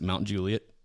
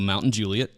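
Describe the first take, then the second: First: The first word is said as Mount. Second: The first word is said as Mountain. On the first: "if you're from here, you pronounce it Mount Juliet" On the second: "we have a Mountain Juliet"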